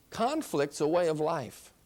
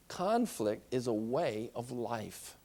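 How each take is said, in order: First: Said in the usual way. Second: "Conflict" weighed, slow and soft; slow emphatic repeat. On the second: Shown as a demonstration. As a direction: drive the point home slowly.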